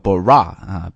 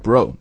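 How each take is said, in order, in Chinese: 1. 这个元音是开口的 'ah' 音。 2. 这个元音是圆唇的 'oh' 音。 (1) "don't pronounce it like a bra" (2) "所以应该读bro"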